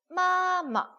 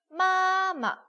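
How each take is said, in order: First: The second syllable drops lightly and low. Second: The same.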